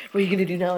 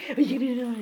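First: Said in the usual way. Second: Much higher, squeaky teasing of the dog. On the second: Pretend. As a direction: taunt the dog in a silly high voice. Teasing dog after tug win.

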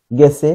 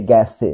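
First: গেছে with closed e, "gese", said louder; as spelled. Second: গেছে with open æ, "gæse", falling; corrected open vowel. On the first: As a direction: say গেছে just as written, gese. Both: Shown as a demonstration. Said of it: "এটা হবে গেছে".

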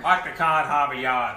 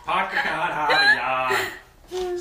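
First: Put-on Boston accent, "cah" and "Hahvahd Yahd"; quick Boston accent with dropped Rs. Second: Put-on louder, slower Boston accent with dropped Rs; drawn-out Boston accent, "Hahvahd Yahd". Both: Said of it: "It's Park the Car in Harvard Yard".

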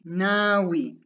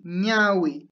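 First: "ñawi" said as "nawi", with a plain n; plain n variant. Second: "ñawi" with a palatal ny sound at the start. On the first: Teacher offering learners another way to say eye, "ñawi" with plain n. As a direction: start "ñawi" with a simple n, no palatal glide. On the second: Teacher giving learners the word for eye, palatal ñ in "ñawi". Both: Shown as a demonstration. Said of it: "También puedes decir".

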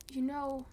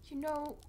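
The two takes are said the same way.

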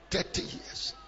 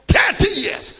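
First: Breathy whispered repeat. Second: High, loud cry of the phrase; shouted. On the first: Preacher hushing the congregation, whispered. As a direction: drop it to a whisper. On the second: Preacher crying out to the congregation, high and loud. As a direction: throw it out to the crowd. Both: Acted.

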